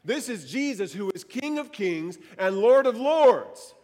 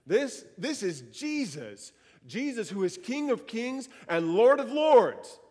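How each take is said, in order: First: Preacher repeats it louder to rouse the room; louder preaching. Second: Slow start building to a louder, higher proclamation; preaching proclamation. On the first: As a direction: lean in and proclaim it louder. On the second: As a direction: declare it to the congregation, building up. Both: Real, not acted. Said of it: "how could this room stay silent when we say that".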